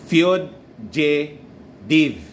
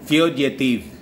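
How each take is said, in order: First: The last syllable sounds like 'div'. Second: The last syllable sounds like 'tiv'. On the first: The speaker calls it right. "hindi pala tiv. Ang dapat tunog niya" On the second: The speaker calls it wrong. "the old ano, pronunciation niyan eh"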